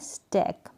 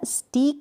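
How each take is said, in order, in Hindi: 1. यह स्वर खुली 'eh' ध्वनि है। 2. यह स्वर लंबी 'ee' ध्वनि है। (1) "इसको आपको पढ़ना है स्टैक" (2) "स्टीक नहीं पढ़ना है"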